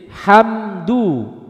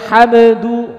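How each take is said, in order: First: The m flows briefly without bouncing. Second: The m ends with a bouncing release. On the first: The speaker calls it right. "ketika nun dan mim sukun mengalir sedikit" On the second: The speaker calls it wrong. "Jangan sampai"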